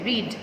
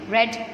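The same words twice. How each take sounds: First: The vowel is long, sounding like 'reed'. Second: The vowel is short, sounding like 'red'. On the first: It is the base form of the verb. "this was the first form. So the pronunciation is read" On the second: It is the third form of the verb. "but it will be read"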